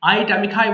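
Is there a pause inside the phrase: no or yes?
no. The phrase runs together without a pause. The speaker calls it right. "আবার বলছি"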